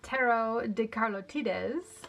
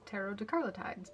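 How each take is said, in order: First: The name is pronounced the Spanish way. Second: The name is pronounced the English way. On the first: "which I think is officially how you say it because it is Spanish" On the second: "I've also always mentally referred to it as"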